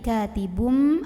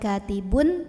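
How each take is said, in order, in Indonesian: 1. Kata ini berakhir dengan bunyi m. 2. Kata ini berakhir dengan bunyi n. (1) "tapi katibum" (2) "jadi bukan katibun"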